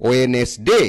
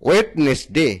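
First: ওয়েনেসডে with the first D silent; correct pronunciation. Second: ওয়েডনেসডে with the first D sounded; mispronounced ওয়েডনেসডে. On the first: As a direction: say ওয়েনেসডে, straight from "we" into N. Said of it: "সঠিক উচ্চারণ হচ্ছে". (ওয়েনেসডে, প্রথম ড অনুচ্চারিত) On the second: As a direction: say ওয়েডনেসডে as spelled, D before the N. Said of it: "ওয়েডনেসডে উচ্চারণটা সঠিক নয়". (ওয়েডনেসডে, ড উচ্চারণ করে) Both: Shown as a demonstration.

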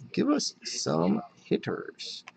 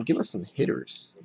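First: Soft, slow, word-by-word plea; slow pleading repeat. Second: Said in the usual way. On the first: Real, not acted. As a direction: draw out each word of the plea. Repeats the plea slowly, spaced out.

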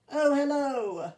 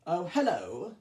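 First: Higher, slow drawn-out hello; D261 greeting. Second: Said in the usual way. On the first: Acted. D261 greeting Henry at the station, higher and slow. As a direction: stretch the greeting up high as D261.

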